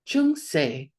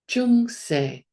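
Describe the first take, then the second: First: The word is said with a low tone. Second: The word is said with a low tone.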